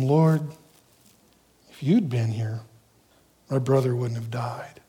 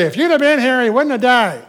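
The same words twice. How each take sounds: First: Low, hushed sorrow; soft, reverent plea with no blame; humble grieving faith. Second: Loud, high-pitched accusation; indignant, raised-voice reproach; chewing him out. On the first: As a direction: say it gently, almost whispering at the end. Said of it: "it has a whole different intent". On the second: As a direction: scold him as if it's his fault. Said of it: "she didn't chew him out like her sister". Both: Acted.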